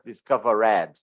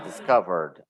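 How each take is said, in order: First: The ending is said as an extra syllable. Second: The ending is said without an extra syllable. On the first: The speaker calls it wrong. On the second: The speaker calls it right.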